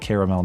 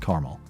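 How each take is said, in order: First: The word is said with three syllables. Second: The word is said with two syllables. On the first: The speaker calls it right. "I say caramel, there's another A in there for a reason" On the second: The speaker calls it wrong. "not caramel"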